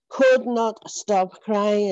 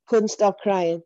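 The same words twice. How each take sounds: First: Could not stop crying, each word slowed and leaned on; slow emphatic. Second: Said in the usual way. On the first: Real, not acted. Telling how she wept in church, "Could not" slow and stressed.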